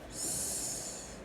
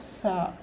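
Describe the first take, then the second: First: The hiss is said with no vowel. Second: A vowel is added after the hiss. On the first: The speaker calls it right. "It is S" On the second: The speaker calls it wrong. "It is not sa"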